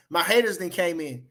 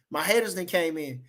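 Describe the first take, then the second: No difference in how they are said.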